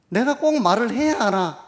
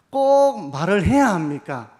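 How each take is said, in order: First: Reluctant grumble, higher and louder, stress on 꼭; grumbling reluctance. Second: Said in the usual way. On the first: Pretend. Pastor voicing a reluctant churchgoer, grumbling. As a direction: sulk out 꼭 as if words were a chore. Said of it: "이렇게 생각하시는 분도 계실지 모릅니다". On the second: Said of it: "이렇게 생각하시는 분도".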